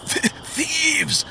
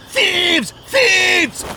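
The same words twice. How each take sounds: First: Much higher, stammered weak cry; a hurt man forcing the word out; groaned. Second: Shrieking. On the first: Wounded pilgrim calls after robbers, much higher strained groan. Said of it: "the pilgrim groaned". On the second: Wounded pilgrim shrieks for help into the darkness. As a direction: shriek it into the dark. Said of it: "he shrieked into the darkness". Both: Acted.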